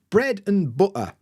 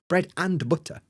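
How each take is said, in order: First: The word 'and' is reduced and weak. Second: The word 'and' is full and strong. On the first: The speaker calls it right. "heard a native speaker say" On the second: The speaker calls it wrong. "We're not saying"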